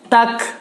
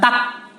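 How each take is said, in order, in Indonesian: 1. k terakhir mengeluarkan hembusan udara yang terdengar. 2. k terakhir tidak mengeluarkan hembusan udara yang terdengar. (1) "Bunyi hames, hames keluar udara dari mulut" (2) "bukan tak"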